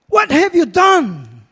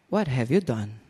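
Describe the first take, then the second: First: It sounds strong and condemning. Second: It sounds gentle, not condemning.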